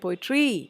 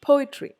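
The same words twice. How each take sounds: First: The stress is on a later syllable. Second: The stress is on the first syllable. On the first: The speaker calls it wrong. "You don't say poetry" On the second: The speaker calls it right. "it is poetry"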